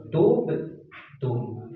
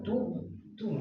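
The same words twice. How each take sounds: First: "Tub, tum" with rounded u, then relaxed final consonant; sukun relaxed normal. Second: "tub, tum" slow, lips kept rounded through the final consonant; wrong held rounding. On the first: Teacher showing sukun, "Tub, tum" with lips back to normal. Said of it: "dia kembali normal". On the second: Teacher showing what not to do, "tub, tum" with pout held. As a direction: keep pouting to the end of "tub, tum". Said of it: "Jangan gitu". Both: Shown as a demonstration.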